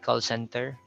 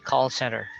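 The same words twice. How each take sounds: First: The T in center is clearly pronounced. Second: The T in center is almost silent. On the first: The speaker calls it wrong. "You don't say call center" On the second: The speaker calls it right. "you say call center"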